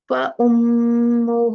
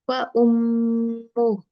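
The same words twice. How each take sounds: First: The final vowel is stretched and flows onward. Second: The word stops short without a final vowel. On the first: The reading continues into the next word. "अगर मुझे कंटिन्यू मैंने किया फिर मैं वो खींचूंगी" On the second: The reading pauses on this word. "लेकिन अगर मैं ये रुकूंगी"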